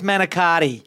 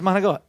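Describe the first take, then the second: First: All syllables are said fully, ending in an i sound. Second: The final vowel is dropped, giving a clipped ending. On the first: This is the standard name of the dish. "I know it's manicotti" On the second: This is how the speaker's family has always said it. "but it's monogot"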